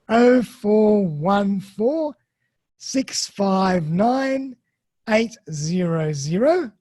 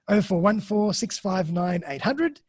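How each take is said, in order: First: The number is read slowly and deliberately. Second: The number is read at a normal pace.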